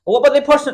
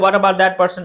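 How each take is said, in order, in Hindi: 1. अंतिम t ध्वनियाँ छूट जाती हैं, चुप रहती हैं। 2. अंतिम t ध्वनियाँ साफ़ बोली जाती हैं। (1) "वो क्या बोलते हैं" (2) "अब हम बोलते हैं"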